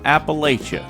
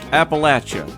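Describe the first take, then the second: First: The third syllable sounds like 'lay'. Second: The third syllable sounds like 'latch'. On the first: The speaker calls it wrong. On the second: The speaker calls it right. "It's pronounced"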